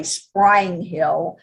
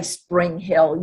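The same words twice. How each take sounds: First: "Sprang Hill", Spring drawn out toward sprang; "Sprang Hill" with a long Southern vowel for Spring; Louisiana pronunciation. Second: "Spring Hill" with a short i in Spring; "Spring Hill" with Spring rhyming with ring; standard pronunciation. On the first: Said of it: "if you're from Louisiana". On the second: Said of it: "you don't say Spring Hill". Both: Shown as a demonstration.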